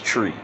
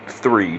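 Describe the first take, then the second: First: It begins with a t sound. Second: It begins with a th sound.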